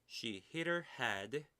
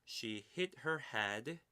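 No difference in how they are said.

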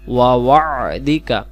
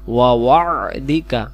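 First: A throaty 'ain' sound is heard in the word. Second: A throaty 'ain' sound is heard in the word.

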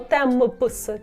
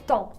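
First: The final p and s sounds are pronounced. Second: The final p and s sounds are silent. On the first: The speaker calls it wrong. "ми не говоримо темпс" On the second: The speaker calls it right. "ПС не читаємо"

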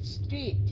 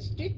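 First: The word is drawn out a little longer. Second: The word is said short and clipped. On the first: The speaker calls it right. "Kéo dài một chút xíu" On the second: The speaker calls it wrong. "Không phải street nha"

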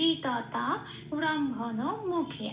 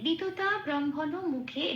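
First: It is read with Sanskrit-style sounds. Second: It is read with Bengali-style sounds. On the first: "সংস্কৃত উচ্চারণটা পেলাম" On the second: "এটা আমি বাংলায় বললাম"

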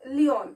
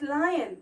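First: The first vowel sounds like ee. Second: The first vowel sounds like eye. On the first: The speaker calls it wrong. "they pronounce it as leon" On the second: The speaker calls it right. "it's lion"

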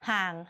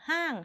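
First: The syllable is said with a low tone. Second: The syllable is said with a falling tone. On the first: "เติมเอกก็เสียงเอก" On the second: "เติมโทก็เสียงโท"

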